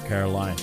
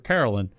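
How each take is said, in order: First: The name ends with a long 'line' sound. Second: The name ends with a short 'lin' sound. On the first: This is how the person herself says her name. The speaker calls it right. "you're asking for Caroline" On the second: This is the northern way of saying the name. The speaker calls it wrong. "you're not asking for Carolyn"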